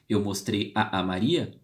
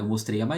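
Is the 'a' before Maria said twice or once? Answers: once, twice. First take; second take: twice; once. First: The vowel 'a' is said twice in a row. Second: The two vowels merge into one 'a' sound. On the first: The speaker calls it wrong. "eu não vou falar os dois, porque é feio" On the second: The speaker calls it right. "Eu vou juntá-los em um só"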